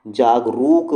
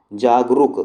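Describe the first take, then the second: First: जागरूक slowed, with a long drawn-out "rooo". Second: जागरूक with the second vowel kept short, as ruk. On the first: Teacher giving the correct word, long U in जागरूक. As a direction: stretch the second vowel in जागरूक to "rook". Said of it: "पर ये word गलत है". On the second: Teacher showing the misleading sound, short U in जागरूक. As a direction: say जागरूक ending in a quick "ruk". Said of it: "वो रुक के आ रही है". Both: Shown as a demonstration.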